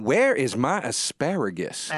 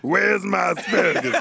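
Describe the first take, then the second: First: Her exact way. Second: Laughing mock shout; a hammed-up yelled demand. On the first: Retold or imitated. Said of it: "she said it like this". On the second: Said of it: "Oh, wait, I'm sorry".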